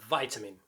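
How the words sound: It is said in an American accent.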